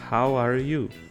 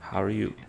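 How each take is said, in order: First: Each word is said separately and clearly. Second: The words run together, with a reduced middle word. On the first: "eu posso falar" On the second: "O are no meio meio que já junta tudo"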